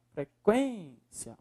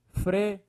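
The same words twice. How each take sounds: First: Frequência with QUÊN drawn out long, soft; stressed QUÊN syllable. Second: Frequência broken into fre, quên, cia; syllable by syllable. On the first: Teacher showing the strongest syllable, QUÊN held long in Frequência. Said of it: "Qual é a sílaba mais forte?". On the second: Teacher separating the word, syllable by syllable. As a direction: leave a gap after each syllable of Frequência. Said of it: "Separa a palavra frequ". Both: Shown as a demonstration.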